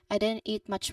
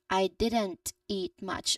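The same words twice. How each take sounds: First: The T is dropped, linking N to eat. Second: The T at the end of didn't is pronounced. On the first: "In its elided form, ... the T might be very light or not fully pronounced" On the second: "the full sentence first"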